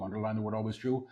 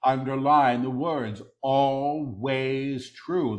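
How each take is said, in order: First: Quick, soft undertone; hushed preview. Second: "always true" drawn out slowly; stress on ALWAYS TRUE. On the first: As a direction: say it softly and rapidly before proclaiming it. Quick soft take before repeating aloud. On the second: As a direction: underline "always true" with long, weighty words. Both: Real, not acted.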